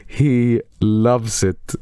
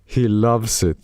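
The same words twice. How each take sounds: First: Slow, savoring repeat. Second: Said in the usual way. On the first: Shown as a demonstration. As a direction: stretch it out for effect.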